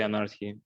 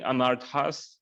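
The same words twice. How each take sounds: First: "anarchy" as a-NAR-tee, ending in ee; Russianized plural pronunciation. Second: "anarthas" ending in a sounded S; English plural pronunciation. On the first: Explaining the Russian plural to the guru, "anarchy" ending in ee. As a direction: end "anarchy" on an ee, no S. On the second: Explaining the plural to the guru, "anarthas" with final S. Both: Shown as a demonstration. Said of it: "instead of saying anarthas, we say anarchy".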